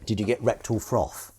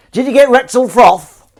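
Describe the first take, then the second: First: Said in the usual way. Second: Put-on loud, high, drawn-out northern accent; put-on northern shout. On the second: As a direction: belt it out in a broad northern English accent. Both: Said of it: "was that a good northern accent".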